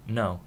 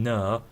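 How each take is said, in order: First: Said in the usual way. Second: "no" with a fronted Hull vowel, like "nuh". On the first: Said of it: "I say". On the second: Shown as a demonstration. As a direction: say "no" as "ner", Hull style. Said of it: "I changed it. Instead of saying".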